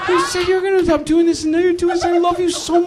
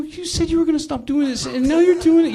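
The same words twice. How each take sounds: First: Hammed-up husband, pitch shooting very high and fast; voice raised way up. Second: High, pleading voice as the wronged husband; hurt husband begging his wife, voice way up; emotional plea. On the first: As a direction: squeak it out like a wronged husband cracking. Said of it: "You know how guys raise their voice?". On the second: Retold or imitated. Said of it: "I really started getting emotional".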